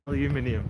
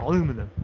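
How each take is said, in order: First: The word is said with five syllables. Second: The word is said with four syllables. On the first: The speaker calls it right. "We don't say that in England" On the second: The speaker calls it wrong. "it's not aluminum"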